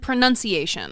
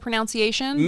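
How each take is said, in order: First: The second syllable sounds like 'nun'. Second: The second syllable sounds like 'nounce'. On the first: The speaker calls it right. "it is very obviously in the spelling" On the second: The speaker calls it wrong. "Did I say pronunciation again?"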